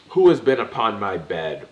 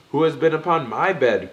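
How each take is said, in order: First: Loud booming roar; papa bear roaring. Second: Much higher, loud growl; mama bear growling. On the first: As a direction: bellow it like an angry old bear. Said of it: "old Bruin roared out". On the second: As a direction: growl it like the mother bear, a bit less rough. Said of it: "growled out Mammy Muff". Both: A narrator's reading.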